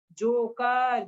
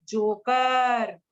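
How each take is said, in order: First: Said in the usual way. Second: joker drawn out very slowly; slow teaching stretch. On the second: Shown as a demonstration. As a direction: sound out joker slowly for children. (Joker को धीरे-धीरे बोलना)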